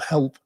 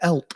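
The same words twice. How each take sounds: First: The word is said in a standard English accent. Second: The word is said in a Northern English accent. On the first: "instead of help" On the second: "I am very northern, and every now and then I'll say a word like help"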